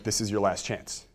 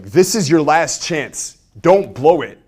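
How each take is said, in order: First: Said in the usual way. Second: Loud, high, slowed yell; aggressive. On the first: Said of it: "a normal scarcity line". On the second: Shown as a demonstration. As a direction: bark it at them like a pushy seller. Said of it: "it just feels aggressive".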